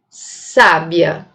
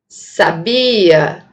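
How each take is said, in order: First: The stress is on the first syllable. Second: The stress is on the second syllable. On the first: It means a woman who has wisdom. "Se eu colocar o acento nesta sílaba" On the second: It is the past tense of the verb to know. "se eu mudar o acento, a posição do acento fonológico para essa sílaba"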